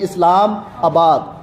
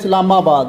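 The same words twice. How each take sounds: First: The word is said slowly and clearly. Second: The word is said quickly and run together. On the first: The speaker calls it right. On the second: The speaker calls it wrong.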